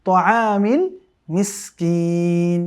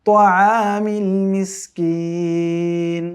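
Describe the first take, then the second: No difference in how they are said.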